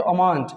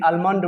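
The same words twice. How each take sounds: First: अमांड with no L; silent L. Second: आलमंड with L after the first vowel; wrong sounded L. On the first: Teacher answers his question, अमांड with silent L. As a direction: say अमांड leaving L out. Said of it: "क्या पढ़ते हैं इसको". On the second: Teacher quoting others' mistake, आलमंड with L. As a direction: pronounce the L in आलमंड. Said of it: "ऐसे गलत नहीं करना है". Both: Shown as a demonstration.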